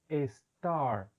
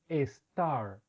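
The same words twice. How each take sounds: The two takes are said the same way.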